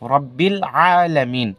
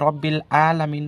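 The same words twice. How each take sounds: First: Alamin begins with a lengthened throat sound. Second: Alamin begins with a short plain vowel. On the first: The speaker calls it right. "আইন বলতে হবে, আর একালি পরিমাণ আইনটাকে লম্বা করতে হবে" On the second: The speaker calls it wrong. "আসলে রব্বিল আলামিন নয়"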